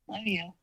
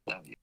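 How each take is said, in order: First: It is said loudly. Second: It is said quietly.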